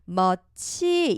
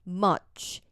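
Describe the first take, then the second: First: The ch is said with flat, unrounded lips. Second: The ch is said with lips pushed forward, rounded. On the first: The speaker calls it wrong. "much 이렇게 소리 내시면 안 돼요" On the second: The speaker calls it right. "입술이 뽀뽀하듯이 앞으로 쭉 빼주세요"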